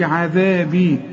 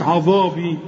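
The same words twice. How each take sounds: First: "عذابي" with thin "aazebi" vowels; correct light dhal. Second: "عذابي" with dark, rounded vowels; "عذابي" said too heavy; wrong heavy dhal. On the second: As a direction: mistakenly thicken "عذابي" to "ozobi". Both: Shown as a demonstration. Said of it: "ما قلتش عذابي".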